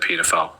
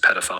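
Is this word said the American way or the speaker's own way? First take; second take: own way; American. First: It is said in the speaker's own pronunciation. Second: It is said in an American pronunciation. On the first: "we pronounce it differently" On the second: "differently to Americans"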